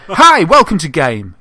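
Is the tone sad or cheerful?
cheerful. It is said in a cheerful voice.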